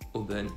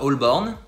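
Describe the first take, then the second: First: The name is said fast with sounds dropped. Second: The name is said in full, as spelled. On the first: This is how people actually say it. "les gens le disent très vite" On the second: This is how the spelling reads. "moi je le lis"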